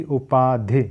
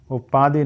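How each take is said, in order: First: "उपाधि" with long paa and short final i; correct pronunciation demo. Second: "उपाधि" with a long ee at the end; wrong pronunciation demo. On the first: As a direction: stretch the middle of "उपाधि", keep the ending short. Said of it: "उपाधि नहीं होती". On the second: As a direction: draw the final vowel of "उपाधि" into dhee. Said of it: "नहीं होती". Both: Shown as a demonstration.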